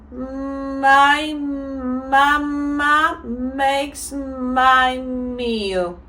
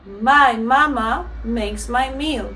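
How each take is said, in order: First: The sentence is said at a fairly fast pace. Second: The sentence is said at the fastest pace. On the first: "now we're gonna say it a bit faster" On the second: "faster, and then at the same time more natural"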